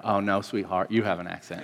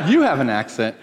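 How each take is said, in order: First: Low, soft Southern "sweetheart" correction; softly patronizing Southern sweetness; sweet Southern accent. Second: Pointed comeback in his own voice; mild mock indignation; retold retort. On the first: Retold or imitated. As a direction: imitate a Southern lady gently setting him straight. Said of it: "this real sweet Southern accent". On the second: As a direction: throw the accusation straight back. His retort to the Southern lady.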